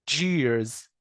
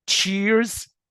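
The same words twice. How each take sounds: First: جيرز with voiced "j", falling; j sound in جيرز. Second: تشيرز with voiceless "ch", high and rising; ch sound in تشيرز. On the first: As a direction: say جيرز as "jeers". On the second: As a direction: say تشيرز as "cheers". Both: Shown as a demonstration. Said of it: "هنلاحظ الفرق".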